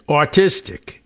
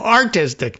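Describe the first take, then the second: First: The word is said in a strong New York accent. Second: The word is said in a plain accent.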